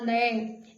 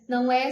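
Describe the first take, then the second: First: The phrase is said in a reduced form. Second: The phrase is said in its full form.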